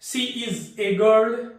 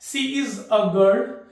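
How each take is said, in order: First: The article is a full 'ay' vowel. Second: The article is a short reduced vowel. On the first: "ए जो है ये बाबू strong form है" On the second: "इस तरह से अ use करता है"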